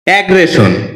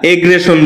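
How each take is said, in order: First: The first vowel sounds like the vowel in 'cat'. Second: The first vowel sounds like the vowel in 'bed'. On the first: The speaker calls it right. "যার সঠিক উচ্চারণ হচ্ছে অ্যাগ্রেশন" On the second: The speaker calls it wrong. "এটাকে আমরা এগ্রেশন বলে থাকি"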